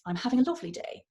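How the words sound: The pitch rises, then falls at the end. "everything going up and then ending down"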